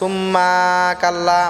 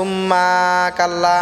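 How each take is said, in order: First: The ma syllable is drawn out long. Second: The same.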